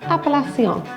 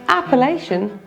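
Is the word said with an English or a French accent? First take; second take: French; English. First: It is said with a French accent. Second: It is said with an English accent.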